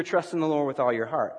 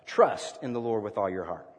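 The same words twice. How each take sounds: First: Said in the usual way. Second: "Trust" punched, pause, then the rest lower; stress on Trust. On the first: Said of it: "Let's try that on this scripture". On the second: Shown as a demonstration. Preacher applying emphasis to scripture, stress on "Trust". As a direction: hit "Trust" first and let the rest fall. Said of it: "Let's put the emphasis on trust".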